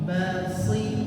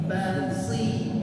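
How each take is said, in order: The two takes are said the same way.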